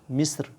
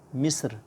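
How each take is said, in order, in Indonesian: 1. Bunyi r akhir dibaca tipis dan ringan. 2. Bunyi r akhir dibaca tipis dan ringan.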